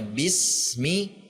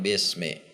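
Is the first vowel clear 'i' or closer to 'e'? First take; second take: clear i; closer to e. First: The vowels are a clear, full 'i' sound. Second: The vowels sound like 'e' instead of 'i'. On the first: The speaker calls it right. "Harusnya bismi" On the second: The speaker calls it wrong. "harokat yang tidak sempurna"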